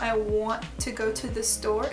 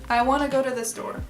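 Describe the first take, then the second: First: Each t is said as a crisp, separate t. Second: The t sounds soften into a quick d sound. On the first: The speaker calls it wrong. "you're having to stop every word and say t" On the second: The speaker calls it right. "it turns kind of into a muted D sound"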